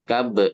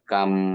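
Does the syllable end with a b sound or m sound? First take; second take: b sound; m sound. First: The syllable ends with a b sound. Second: The syllable ends with an m sound. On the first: "Kab dibaca kam" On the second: "Baknya udah melebur ke huruf mim"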